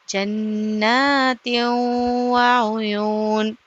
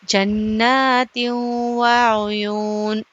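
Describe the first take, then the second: The two takes are said the same way.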